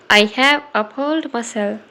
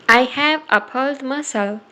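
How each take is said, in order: Both takes have the same delivery.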